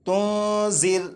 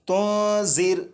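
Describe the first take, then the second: The two takes are said the same way.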